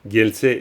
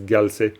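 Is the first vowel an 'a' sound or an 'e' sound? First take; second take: e sound; a sound. First: The first vowel is an 'e' sound. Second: The first vowel is an 'a' sound. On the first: This follows the spelling rule. "c'est gel, gelse" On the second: This is how it is often said in practice. "mais souvent ça se prononce galse"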